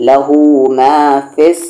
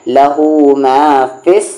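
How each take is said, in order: The two takes are said the same way.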